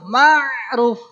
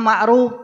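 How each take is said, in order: First: The name is said with an Arabic pronunciation. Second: The name is said with an Indonesian pronunciation. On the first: The speaker calls it right. "padahal mah" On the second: The speaker calls it wrong.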